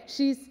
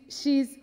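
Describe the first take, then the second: No difference in how they are said.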